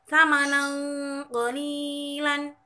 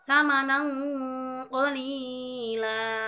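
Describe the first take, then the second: First: The phrase ends with a final n sound. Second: The phrase ends with a lengthened a vowel.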